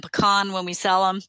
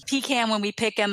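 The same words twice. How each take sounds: First: PECAN as puh-KAHN; grandfather's selling pronunciation. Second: PECAN as PEE-can; grandfather's joke pronunciation. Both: Retold or imitated. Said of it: "what my grandfather would say".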